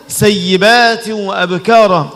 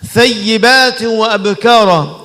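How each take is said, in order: First: The first word begins with an s sound. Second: The first word begins with a th sound. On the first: The speaker calls it wrong. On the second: The speaker calls it right.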